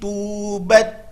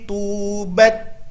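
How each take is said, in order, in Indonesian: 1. Bunyi t di akhir bergeser ke bunyi yang berbeda. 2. Bunyi t di akhir tetap tegas di tempatnya. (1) "Kesalahannya adalah" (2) "Itu ketika sukun"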